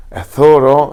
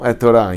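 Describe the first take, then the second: First: Thoro, th between the teeth, ending in O; Yemenite pronunciation. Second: Said in the usual way. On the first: Shown as a demonstration. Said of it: "os Teimanim é Tho, é T H". (Thoro com th iemenita e O final)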